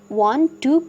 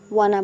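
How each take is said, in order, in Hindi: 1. दो शब्द अलग-अलग और पूरी तरह बोले जाते हैं। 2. दोनों शब्द मिलकर एक छोटा, घटा हुआ शब्द बन जाते हैं। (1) "इसे वांट टू को" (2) "वाना बोलेंगे"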